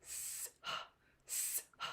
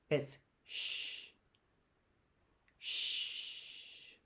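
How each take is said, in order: First: "S, H" breathed as two separate hisses; teacher showing the wrong way; separate letter sounds. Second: "sh" as one soft hushing sound; teacher showing the digraph sound. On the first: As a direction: hiss each letter apart. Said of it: "S would be S and H would be H". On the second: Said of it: "That sound is a little different". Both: Shown as a demonstration.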